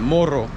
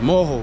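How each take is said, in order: First: The r is said as a normal r. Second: The r is not said as a normal r. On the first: This is how a Spanish speaker would say it. "In Spanish, it will sound like morro" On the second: This is how locals in Brazil say it. "they don't pronounce them R's like an R supposed to be pronounced"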